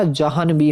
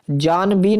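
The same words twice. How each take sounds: First: जहान भी as ja-han-bee; corrected pronunciation. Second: जान भी as jaan-bee, no h; wrong pronunciation. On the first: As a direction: sound the h clearly in जहान भी. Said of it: "होता है". (जहान भी में 'ह' साफ़ बोलें) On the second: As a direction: drop the middle syllable in जान भी. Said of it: "नहीं होता". (जान भी को बिना 'ह' के बोलें) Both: Shown as a demonstration.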